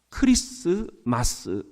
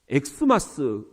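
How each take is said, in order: First: The word begins with the sound 'kris'. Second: The word begins with the sound 'eks'. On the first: The speaker calls it right. "크리스마스 이렇게 얘기를 한다" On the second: The speaker calls it wrong. "그것은 잘못된 발음인 거죠"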